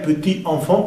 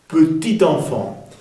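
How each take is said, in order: First: The t of petit is silent, no linking. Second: The t of petit links into enfant. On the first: "Sería petit enfant" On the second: "podemos hacer la liaison, la conexión y pronunciar la T"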